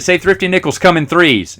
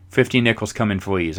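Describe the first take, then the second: First: Said in the usual way. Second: "Thrifty" as fifty and "fleas" for threes, soft; softer f for every thr; mock speech impediment. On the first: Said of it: "she couldn't say T H R". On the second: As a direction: imitate her th trouble quietly. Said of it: "She couldn't say three or thrifty".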